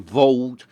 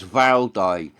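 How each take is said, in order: First: The name is said as one syllable. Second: The name is said as two syllables. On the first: This is the older way people said it. The speaker calls it wrong. "When I was like younger, everyone called them tents Vald" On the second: This is the newer way people say it. The speaker calls it right. "people are getting the right pronunciation"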